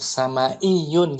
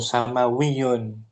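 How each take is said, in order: First: A glottal stop comes before the ending. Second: A w sound comes before the ending. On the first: "boleh menetapkan hamzah tadi sama iyun gitu bacanya" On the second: "Atau diganti waw"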